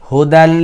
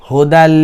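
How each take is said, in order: The two takes are said the same way.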